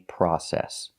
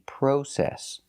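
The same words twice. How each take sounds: First: It is said with an American pronunciation. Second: It is said with a British pronunciation. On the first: "in America, we don't. We say process" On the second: "In England, they say process"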